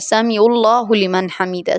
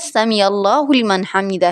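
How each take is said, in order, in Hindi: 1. पहले दो शब्द जल्दी-जल्दी बोले जाते हैं और आपस में जुड़ जाते हैं। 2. पहले दो शब्द ध्यान से और अलग-अलग बोले जाते हैं। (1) "जल्दी होती है नमाज ख़त्म करने की, तो वो इस तरीके से पढ़ते हैं" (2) "समी अल्लाहु लिमन हमिदा है"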